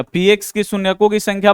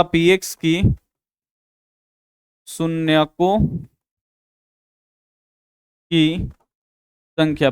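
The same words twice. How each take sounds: First: Said in the usual way. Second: Word by word, slow and drawn out, as if writing; slow dictation. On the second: Shown as a demonstration. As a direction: dictate each word slowly for the class to copy. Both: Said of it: "यहां पे लिखिएगा".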